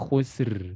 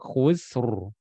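First: The r sound is thin and light. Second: The r sound is thick and heavy. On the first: The speaker calls it wrong. "Bukan khusr. Ya, itu ro-nya tipis" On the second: The speaker calls it right. "ro tebal"

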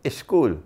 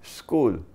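First: A vowel is added before the s-k cluster. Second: The word starts directly with the s-k cluster. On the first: "So the Pakistani would say, school. Put an alif in front" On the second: "So it's not school"

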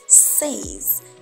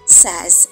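First: The vowel is long, like 'sayz'. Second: The vowel is short, like 'sez'. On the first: The speaker calls it wrong. "and not says" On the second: The speaker calls it right. "So you have says"

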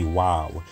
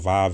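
First: The word begins with a W sound. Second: The word begins with a V sound. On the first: The speaker calls it right. "the correct pronunciation for this character, historically, linguistically, would be Wav" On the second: The speaker calls it wrong. "Some people call it Vav or pronounce it Vav"

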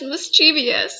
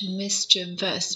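First: It has four syllables, ending in -chee-vee-us. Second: It has three syllables, ending in -chuh-vus. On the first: The speaker calls it wrong. "there's no such thing as mischievous" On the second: The speaker calls it right. "There's no I after the V"

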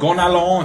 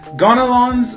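First: The name is said the French way. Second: The name is said the English way.

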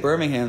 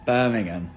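First: The name is pronounced the American way. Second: The name is pronounced the British way. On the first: The speaker calls it wrong. "you say Birmingham, stupid" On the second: The speaker calls it right. "You gotta say Birmingham"

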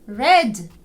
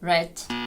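First: The final consonant is voiced. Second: The final consonant is voiceless. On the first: The speaker calls it right. "замість red" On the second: The speaker calls it wrong. "Не оглушуйте дзвінки приголосні в кінці слів"

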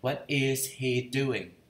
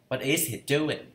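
First: Each word is said clearly and separately. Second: The words run together quickly, linked. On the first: The speaker calls it wrong. "người ta không có nói rõ từng chữ như vậy" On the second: The speaker calls it right. "mình nói âm vô luôn, không phải là nói âm mà mình đọc nhanh vô"

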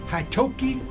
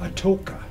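First: The name starts with an h sound. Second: The name starts with a vowel sound. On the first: This is the original Choctaw form of the name. "that's the correct pronunciation" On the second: This is how the name is used today. "but it's called Atoka"

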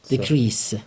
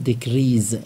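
First: The word ends with an s sound. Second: The word ends with a z sound. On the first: The speaker calls it right. "اینجا سه تلفظ میشه" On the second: The speaker calls it wrong. "بعضی ها اینو میخونن دیکریز. غلطه"

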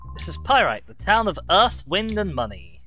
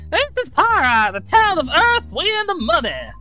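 First: It is read in the speaker's normal voice. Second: It is read in an old Wild West voice.

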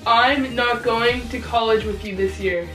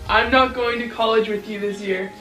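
First: It is said at a slow pace. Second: It is said at a fast pace.

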